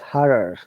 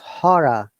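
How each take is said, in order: First: It is said with an American accent. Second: It is said with a British accent. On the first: "but in American English, it is horror" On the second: "In British English, it becomes horror"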